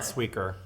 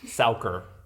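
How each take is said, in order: First: The first vowel sounds like English 'we'. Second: The first vowel sounds like English 'ow'. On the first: The speaker calls it wrong. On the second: The speaker calls it right. "it's an ow sound"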